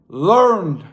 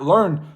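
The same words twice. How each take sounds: First: The word is said with strong, drawn-out emphasis. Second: The word is said plainly, without extra emphasis. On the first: The speaker calls it right. "Emphasize the learn" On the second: The speaker calls it wrong. "Not learned"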